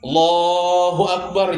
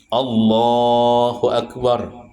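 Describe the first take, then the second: First: The final sounds of the phrase are dropped. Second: Every sound of the phrase is fully pronounced. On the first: The speaker calls it wrong. "Kurang ujungnya" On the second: The speaker calls it right. "bujur-bujur mengucapkannya"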